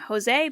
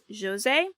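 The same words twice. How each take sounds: First: The name is said with English-style sounds. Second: The name is said with Portuguese-style sounds. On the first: The speaker calls it wrong. "for the longest time, I kept saying Jose" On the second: The speaker calls it right. "the Portuguese like pronunciation is Jose"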